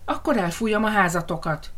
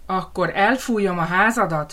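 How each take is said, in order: First: Mild mock howl, stress on Akkor; understated roar of the threat; howling wolf. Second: A touch of menace on elfújom; lightly voiced wolf threat; threatening wolf. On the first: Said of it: "üvöltötte a farkas". (enyhén üvöltő farkas) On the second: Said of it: "fenyegetőzött a farkas". (enyhén fenyegető farkas)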